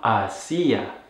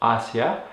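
First: The stress is on the second syllable. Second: The stress is on the first syllable. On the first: It is a verb form, not the preposition. The speaker calls it wrong. "and not hacia, which is actually a verb" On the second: It is the preposition meaning towards. The speaker calls it right. "pronounce it with the stress on that first syllable"

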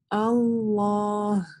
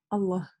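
First: The vowel after the l is held long. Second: The vowel after the l is cut short. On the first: The speaker calls it right. "мы говорим Аллах" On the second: The speaker calls it wrong. "мы не говорим"

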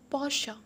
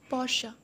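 First: The word ends with a final 'uh' vowel. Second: The word ends with a final 'uh' vowel.

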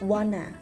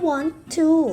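First: The words blend quickly into one reduced word. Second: Both words are said fully and separately.

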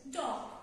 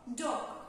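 The two takes are said the same way.

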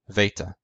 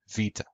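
First: It is said with the Koine Greek pronunciation. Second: It is said with the modern Greek pronunciation. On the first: "In Koine Greek, it was pronounced veta" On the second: "In modern Greek, it's pronounced vita"

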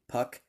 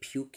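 First: The name rhymes with 'duck'. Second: The name rhymes with 'duke'. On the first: "Here's AJ Puck" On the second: "Some people were saying AJ Puke yesterday"

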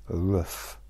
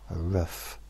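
Both takes have the same delivery.

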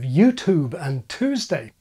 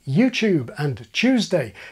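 First: The t is followed by a y sound. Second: The t sounds like a ch sound. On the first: "instead of" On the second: "why some people say"

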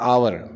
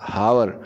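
First: The word begins directly with a vowel sound. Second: The word begins with an audible h sound. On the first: The speaker calls it right. "इसको हमने H silent करके पढ़ते हैं आवर" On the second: The speaker calls it wrong. "ये हम लोग गलत पढ़ते हैं"

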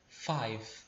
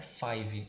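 First: The word ends cleanly on the v sound. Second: An extra vowel sound follows the final v. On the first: The speaker calls it right. "É como se a gente só pronunciasse até o V" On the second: The speaker calls it wrong. "você não deve dizer five como se tivesse um I"

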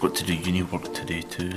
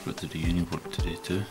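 First: It is said at a louder volume. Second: It is said at a quieter volume.

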